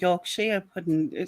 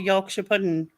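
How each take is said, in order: First: Yorkshire is split so it sounds like two words. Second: Yorkshire is run together as one word. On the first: "it sounds like you separate the word" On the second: "So I just say Yorkshire pudding"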